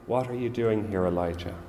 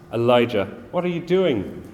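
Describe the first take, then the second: First: Soft, still small voice; God asking Elijah softly, in a gentle near-whisper. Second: Raised, sharp scolding of a scared prophet; God imagined scolding Elijah, stern and raised; stern rebuke. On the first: A narrator's reading. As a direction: hush it down, tender and calm. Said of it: "in a still small voice saying". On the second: Pretend. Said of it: "he doesn't come to Elijah like that".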